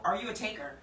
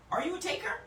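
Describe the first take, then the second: First: Said in the usual way. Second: "taker" lifted high with a sharp rise; pointed rising question. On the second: Shown as a demonstration. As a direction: challenge them with "taker".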